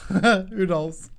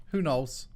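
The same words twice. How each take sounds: First: Repeated with a laugh in it, higher and louder. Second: Said in the usual way. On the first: Shown as a demonstration. Streamer joking about a game bug, laughing. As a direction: laugh it through as a joke.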